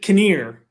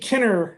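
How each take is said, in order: First: The second syllable sounds like 'near'. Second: The second syllable sounds like 'ner'. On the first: "the way the Scots did" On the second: "like dinner with a K"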